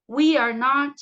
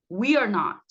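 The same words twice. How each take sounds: First: WE ARE NOT loud, word by word; model pronunciation. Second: WE ARE NOT run together as "we're not", falling; linked pronunciation. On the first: (pronúncia modelo, forte e articulada) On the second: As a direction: link "we are" into one syllable. (pronúncia contraída) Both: Shown as a demonstration. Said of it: "vão repetindo aí comigo".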